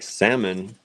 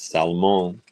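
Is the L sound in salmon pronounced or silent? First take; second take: silent; pronounced. First: The L in the word is silent. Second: The L in the word is pronounced. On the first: The speaker calls it wrong. "I was saying salmon" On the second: The speaker calls it right. "You don't pronounce the L; it's there"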